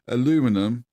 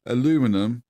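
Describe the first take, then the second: First: It is said with an American pronunciation. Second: It is said with an American pronunciation.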